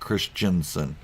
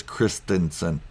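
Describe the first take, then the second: First: Christensen said slowly as Chris-chen-sen; mispronunciation. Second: Christensen said slowly with a clear T, Chris-ten-sen; correct pronunciation. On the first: YouTuber showing others' mistake, Christensen said wrongly as Chris-chen-sen. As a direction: swap the T in Christensen for a CH sound. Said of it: "mispronounce it ... not Christensen". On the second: YouTuber correcting other YouTubers, Christensen with a clear T. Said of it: "mispronounce it, it is Christensen". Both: Shown as a demonstration.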